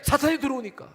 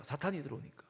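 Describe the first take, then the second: First: High, loud preacher's warning; emphatic warning. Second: Soft, subdued echo of a warning; hushed repeat. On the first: Preacher telling congregation why faith must stand, emphatic warning. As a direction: drive the answer home forcefully. Emphatic answer, then quieter repeat. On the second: Preacher repeating the reason to congregation, quietly subdued. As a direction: drop the voice for the repeat. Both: Real, not acted.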